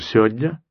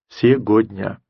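First: More sounds are dropped than before. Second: Every syllable of the word is fully pronounced. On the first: "может быть, даже" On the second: "который бы произнес все это слово целиком"

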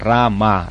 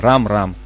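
First: The name is said in full, ending on a. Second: The name is cut short, ending on m. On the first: It is the full, proper form of the name. The speaker calls it right. "а «Рама»" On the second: It sounds familiar, as between close companions. The speaker calls it wrong. "не «Рам-Рам»"

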